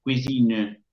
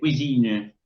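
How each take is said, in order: First: The sounds are exaggerated, as if dictating. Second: The same.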